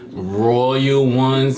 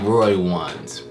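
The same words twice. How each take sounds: First: The phrase is said at a slower pace. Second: The phrase is said at a quicker pace.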